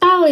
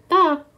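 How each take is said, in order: First: The syllable ends with an l sound. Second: The syllable ends with a k sound. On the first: The speaker calls it wrong. "Ini bukan tal ya kita baca" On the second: The speaker calls it right. "Jadi kita bacanya adalah tak"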